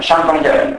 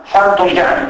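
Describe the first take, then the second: First: Said in the usual way. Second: Θαν with th in place of the s of σαν; dialect th for s. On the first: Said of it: "σαν ως θαν". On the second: Shown as a demonstration. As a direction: lisp the first sound into θαν τον Γιάννη. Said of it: "η προφορά του συνδέσμου σαν ως θαν".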